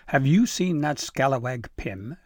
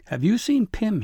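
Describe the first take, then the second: First: Gruff, irritated demand; fuming. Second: High, loud, out-of-breath question; breathless. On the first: A narrator's reading. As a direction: grumble it out like a cross old foreman. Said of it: "Fanafru fumed". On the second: Acted. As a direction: gasp it out after running. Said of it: "breathless and red in the face".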